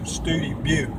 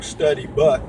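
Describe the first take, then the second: First: The name is said the local way. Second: The name is said as it looks written. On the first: The speaker calls it right. "they pronounce it Studi Butte" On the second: The speaker calls it wrong. "it looks like Study Butt"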